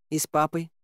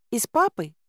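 First: Успокаивающе. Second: Put-on high child's questioning voice; маленькая царевна. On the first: Acted. Героиня успокаивает царевну. (спокойное тихое подтверждение) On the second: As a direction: ask hopefully as a little girl. Царевна спрашивает о папе. (высокий детский вопрос)

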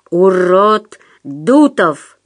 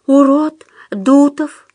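First: Slow, whispery hissed correction; drawn-out threatening hiss; menacing hiss. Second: High, slow obedient voice; cowed, careful repetition; meek self-correction. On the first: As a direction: hiss it out word by word. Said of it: "прошипел Пётр". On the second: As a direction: correct yourself in a thin raised pitch. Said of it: "исправился тот". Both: A narrator's reading.

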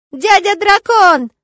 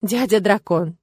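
First: Put-on high, loud, drawn-out child's cry; little boy thrilled to greet a guest; gleeful, long-held yell; joyful shout. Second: Said in the usual way. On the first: A narrator's reading. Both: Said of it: "радостно закричал он".

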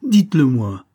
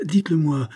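First: Much louder, demanding shout; forceful cry. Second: Insistent. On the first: Young man grabs the major's wrist, shouting his demand. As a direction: demand it, now yelling. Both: A narrator's reading. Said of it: "s'écria avec force".

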